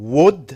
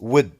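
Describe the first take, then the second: First: The word is said in its full form. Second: The word is said in a reduced form. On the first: "Would becomes" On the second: "becomes would"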